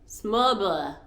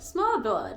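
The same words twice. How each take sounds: First: The D sound is dropped. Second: The D sound is clearly pronounced. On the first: "when I dropped the D" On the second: "I'm just butchering this word"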